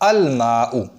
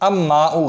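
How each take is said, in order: First: The l is pronounced clearly before the m. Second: The l merges into the following m sound. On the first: The speaker calls it right. "मीम जो है वो कमरी है तो अल माऊ" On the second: The speaker calls it wrong. "अब माऊ गलत होगा"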